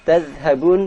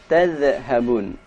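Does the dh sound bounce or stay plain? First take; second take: plain; bounced. First: The dh is closed without any bounce. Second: The dh is released with a bounce. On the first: The speaker calls it right. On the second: The speaker calls it wrong.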